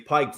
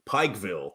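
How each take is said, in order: First: The ending is pronounced 'vull'. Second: The ending is pronounced 'ville'. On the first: "they say Pikeville" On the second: "whether it be Pikeville"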